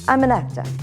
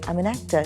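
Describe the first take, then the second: First: It is said with pride, confidently. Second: It is said without pride, hesitantly.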